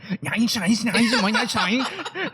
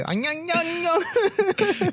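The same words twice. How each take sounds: First: Much higher, laughing mock Asian accent. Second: High, sing-song mock Asian accent; mocking an Asian accent in a high nasal sing-song. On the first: Imitating his friend's bad Asian accent, high and laughing. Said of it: "that's what you sound like". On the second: Friend mocks Vietnamese speakers with a high mock Asian accent. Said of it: "every time you do, like, um, the accent".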